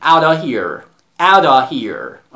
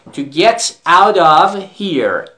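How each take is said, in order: First: "Out of here" said as "outta here"; f dropped. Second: "out of here" slowly, with "of" sounded as "ov"; f kept. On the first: Teacher telling students to drop the f, "outta here". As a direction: drop the f of "of" and link it. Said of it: "افش رو توی تلفظ دراپ کنید و اینجور بگید". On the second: Teacher contrasting forms for students, "of" said in full. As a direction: keep the v sound in "of". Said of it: "افش رو توی تلفظ دراپ کنید". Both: Shown as a demonstration.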